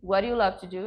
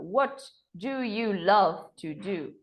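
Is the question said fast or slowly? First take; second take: fast; slowly. First: The question is said quickly, words run together. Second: The question is said slowly, words kept apart. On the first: "É um pouco mais rápido" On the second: "eu vou falar mais devagar aqui para vocês"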